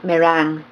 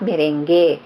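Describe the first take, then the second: First: It is not said like the dance name. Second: It is said like the dance name. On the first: This is the dessert topping. The speaker calls it right. "it should be um, pronounced as meringue" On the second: This is the name of a Latin dance. The speaker calls it wrong. "not merengue. Kasi merengue is a Latin dance"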